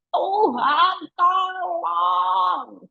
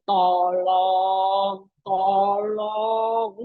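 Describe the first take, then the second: First: Crying out. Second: Lazy, sing-song mock plea; casual half-hearted plea. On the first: Pretend. Preacher shows the earnest prayer of the desperate, crying out. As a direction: cry out to God with full force. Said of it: "segenap teriak". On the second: Preacher mocks a lukewarm prayer, lazy sing-song. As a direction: toss off a careless, lilting please. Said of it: "nggak mungkin memohonnya bilang gini".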